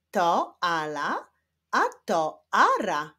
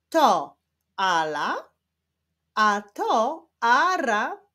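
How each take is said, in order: First: Measured but slightly brisker reading; quicker reading. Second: Slow, emphatic word-by-word reading. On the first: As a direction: read clearly, keeping the pauses shorter. (nieco szybsze, staranne czytanie) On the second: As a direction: read slowly with pauses between words. (wolne czytanie z pauzami) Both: Shown as a demonstration. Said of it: "ale w szybszym tempie".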